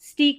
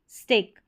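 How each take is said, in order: First: The vowel is a long 'ee' sound. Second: The vowel is an 'ay' sound. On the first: The speaker calls it wrong. "इसको स्टीक नहीं पढ़ेंगे" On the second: The speaker calls it right. "यहाँ पढ़ेंगे स्टेक"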